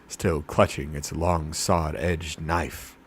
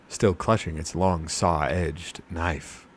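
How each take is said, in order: Both takes have the same delivery.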